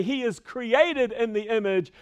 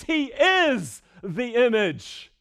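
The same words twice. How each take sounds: First: Said in the usual way. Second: "is" raised high and stretched out; slow down and lean hard on "is"; emphatic, drawn-out "is" before "the image"; stress on IS. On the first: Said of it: "He doesn't say". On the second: Shown as a demonstration. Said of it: "That's really important".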